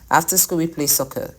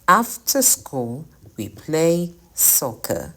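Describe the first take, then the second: First: It is said without a pause after school. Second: It is said with a pause after school. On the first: The speaker calls it wrong. "It's not right to say" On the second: The speaker calls it right. "you want to speak naturally, you say"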